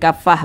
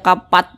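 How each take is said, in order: First: It ends with a soft h sound. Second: It ends with a t sound. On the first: The speaker calls it right. "tapi kafah begitu" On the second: The speaker calls it wrong. "jangan dibaca kapat"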